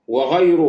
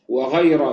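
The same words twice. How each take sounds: First: The word ends with a u vowel. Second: The word ends with an a vowel. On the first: It describes the word any. "بالضم" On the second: It marks an exception. "بالفتح"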